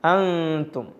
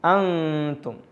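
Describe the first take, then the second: The two takes are said the same way.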